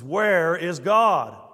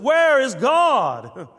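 First: It is said somewhat louder and more sternly. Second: It is said very loudly with great authority. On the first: "raised his voice a little bit more sternly" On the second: "with very much volume and great authority"

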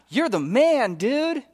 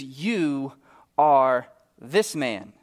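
First: It sounds like casual, friendly praise. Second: It sounds like a grave, serious accusation.

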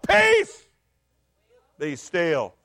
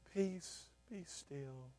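First: It is said in a stern, scolding tone. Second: It is said in a calm, gentle tone.

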